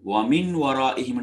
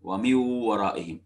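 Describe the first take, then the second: First: The n is kept separate without nasal merging. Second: The n merges into w without nasal sound. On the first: "ஒன்னா இதெல்லாம் எதுவும் இல்லாமல் ஓதுறது" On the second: "இணை இணைத்தல் என்பது அங்க நடக்குது, ஆனா ஒன்னா இன்றி நடக்குது"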